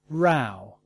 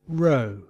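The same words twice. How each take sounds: First: The vowel rhymes with how. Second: The vowel rhymes with go. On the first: "And now some OW words" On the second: "diphthongs pronunciation O and OW, as in no and now"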